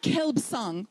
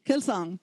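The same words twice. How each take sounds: First: "Kelbsang" with a b after the l; silent b sounded. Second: Said in the usual way. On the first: Shown as a demonstration. Lecturer shows class the wrong way, "Kelbsang" with a sounded b. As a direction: put an audible b before the s in "Kelbsang". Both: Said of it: "it's not Kelbsang".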